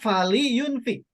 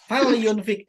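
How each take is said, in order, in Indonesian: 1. Bunyi vokal 'i' pendek mengikuti bunyi L. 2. L menutup suku kata tanpa vokal. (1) "Asalnya fali yunfik" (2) "tapi lamnya disukunkan"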